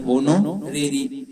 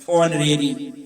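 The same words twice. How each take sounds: First: होनोरेरी said slowly with the h sounded, ho-no-re-ri; spelling pronunciation. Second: ऑनरेरी with a silent h, on-re-ri; real pronunciation. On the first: Teacher sounding out the h of होनोरेरी for spelling. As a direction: sound out होनोरेरी letter by letter with a clear h. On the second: Teacher giving students the real spoken ऑनरेरी. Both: Shown as a demonstration. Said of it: "एच कह देते हैं ताकि spelling सही हो".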